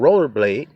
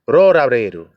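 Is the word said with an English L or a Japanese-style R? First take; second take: English L; Japanese R. First: It is said with English L sounds. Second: It is said with Japanese R sounds.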